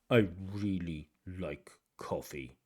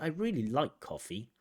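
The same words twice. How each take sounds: First: It is said flatly, without enthusiasm. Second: It is said with lively, enthusiastic intonation. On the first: The speaker does not seem to like it. The speaker calls it wrong. "which doesn't sound like I like coffee" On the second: The speaker seems to really like it. The speaker calls it right. "which is natural intonation"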